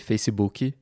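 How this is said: It is said with a Brazilian Portuguese pronunciation. "in Portuguese or in Brazil we say Facebook"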